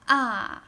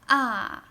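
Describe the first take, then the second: First: The pitch falls sharply from high. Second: The same.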